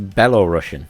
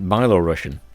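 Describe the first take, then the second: First: The first syllable sounds like 'bell'. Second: The first syllable sounds like 'bye'. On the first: "which I'm assuming you still pronounce as Belorussian" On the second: "in English, you would pronounce it Byelorussian, because it's B Y E"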